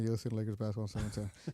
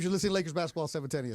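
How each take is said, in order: First: It is said flatly with little energy. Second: It is said loudly with lots of energy. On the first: The speaker calls it wrong. "You don't want to hear" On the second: The speaker calls it right. "You want to hear"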